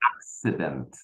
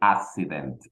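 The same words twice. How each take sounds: First: The double C is said as k s. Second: The double C is said as plain s. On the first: The speaker calls it right. "We say accident" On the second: The speaker calls it wrong. "We don't say accident"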